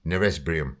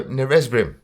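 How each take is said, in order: First: Retry Neresbrium, still not quite right; another try at the word. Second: Neresbrim said flat, anglicised; Bulgarian word, said wrong. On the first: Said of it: "I can't do the actual pronunciation". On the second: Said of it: "even that's pronounced wrong". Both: Shown as a demonstration.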